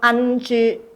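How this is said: The letters are said with altered mainland-style sounds.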